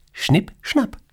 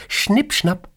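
First: Schnipp, schnapp squeaked much higher, rising at the end; Schnipp, schnapp like a high playful snip of the thread; snipping scissors sound. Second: Schnipp, schnapp squeaked much higher, playful; Schnipp, schnapp as a high sing-song snip; snipping scissors sound. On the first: Boss acting out Morta cutting the thread, high playful snip. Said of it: "schneidet Morta den Lebensfaden durch". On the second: Boss miming scissors at her employee, high playful snip. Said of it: "Sie nimmt eine Schere". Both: Acted.

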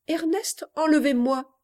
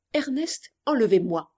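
First: High, startled reading of a note; astonished reading. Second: Reciting her note. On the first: Girl finding her own letter never posted, astonished. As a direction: read it out in disbelief, pitch jumping up. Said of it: "Que vois-je?". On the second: Girl recalling the letter she just posted, recited plainly. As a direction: recall the short note, dropping on the plea. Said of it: "Trois mots". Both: Acted.

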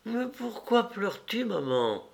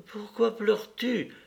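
First: Put-on high, soft child's question, dropping on the last word; wide-awake child. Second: Put-on high child's voice with a touch of tears; a little boy about to cry, lightly played; near tears. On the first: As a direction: ask like a puzzled little boy. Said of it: "demanda-t-il tout à fait réveillé". (voix aiguë et douce d'enfant qui s'interroge) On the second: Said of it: "prêt à pleurer lui-même". (voix d'enfant aiguë, un peu au bord des larmes) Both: A narrator's reading.

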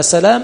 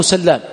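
First: سلام with one short L; single light L. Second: سلام with a long doubled L. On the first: Teacher quoting a narrator's name, single L in سلام. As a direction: say سلام lightly, L not doubled. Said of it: "بالتشديد، ما تدري سلام منه". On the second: Teacher giving the alternative name, L doubled in سلام. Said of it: "بالتشديد". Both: Shown as a demonstration.

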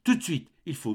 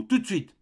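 First: Higher, urgent first try; frightened plea. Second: Much higher, more desperate repeat; frantic plea. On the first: Mother urging her son to act now, frightened. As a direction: press him, already scared. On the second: Mother insisting to her son, rising into panic. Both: A narrator's reading.

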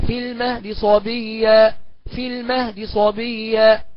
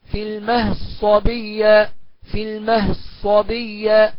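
First: Slow في المهد صبية with a brief, faint vowel on the د; snatch the dal's vowel, keep it audible. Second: Slow في المهد صبية with the د merged into the ص; full merging. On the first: Teacher demonstrating the snatched-vowel reading. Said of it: "والاختلاس كده". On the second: Teacher demonstrating full assimilation. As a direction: chant it, letting the dal vanish into the sad. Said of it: "تقرأ بالإدغام المحض هكذا". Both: Shown as a demonstration.

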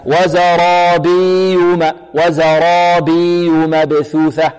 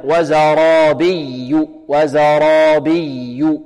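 First: Slow chant, وزرابي with long ii and no pressed y; doubling lost, wrong. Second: Very slow chant, pressed double y in وزرابي; stressed doubled yaa. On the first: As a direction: stretch the ي of وزرابي without stressing it. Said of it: "لعل البعض ينطقها هكذا". (نطق خاطئ بإظهار ياء وزرابي دون نبر) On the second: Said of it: "إذن لا بد من النبر". (ترتيل بطيء مع نبر الياء المشددة في وزرابي) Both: Shown as a demonstration.

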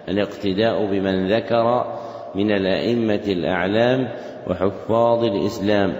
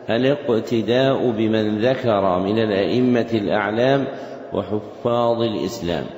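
No difference in how they are said.

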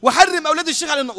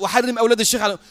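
First: High, raised call of a supplication; dictated prayer. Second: Fast parroted prayer echo; repeated prayer. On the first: Sheikh dictating a prayer to Samara, voice raised high. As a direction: lead the prayer line with voice lifted. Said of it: "الشيخ بيمليه بقى". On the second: Samara repeating the sheikh's dictated prayer, quick echo. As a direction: hurry the supplication back, obediently. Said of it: "وسمارة يقول". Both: Retold or imitated.

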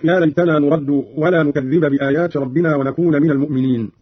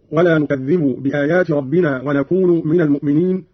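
First: Said in the usual way. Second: نكذب ends in -bu and ونكون in -nu; u endings on نكذب and ونكون; nominative endings. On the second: Shown as a demonstration. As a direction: say "nukadhdhibu" for نكذب, "nakunu" for ونكون. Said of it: "بالرفع".

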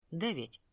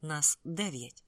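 First: Said in the usual way. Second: «дев'ять» slow and weighted, each word spaced; firm correction. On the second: A narrator's reading. Lin insisting on the count, slow stress on «дев'ять». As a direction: lean on «дев'ять» slowly to insist. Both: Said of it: "поправив я його".

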